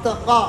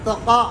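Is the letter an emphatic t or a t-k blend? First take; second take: t-k blend; t-k blend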